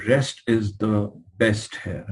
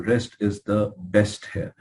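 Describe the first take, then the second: First: Very slow, each word weighed; slow emphasis. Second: Very slow, words spaced out; slow emphasis. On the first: Lecturer driving home bed rest to students, slow and weighty. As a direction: spell it out slowly to drive it home. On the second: Doctor repeating his rule for students, slow and deliberate. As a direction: repeat the point slowly and deliberately. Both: Shown as a demonstration. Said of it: "I mean, I'm telling you".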